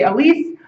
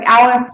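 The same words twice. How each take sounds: First: The name is said with French pronunciation. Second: The name is said with English pronunciation. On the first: "I'll use the French, French pronunciation and say ALICE" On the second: "it looks like Alice"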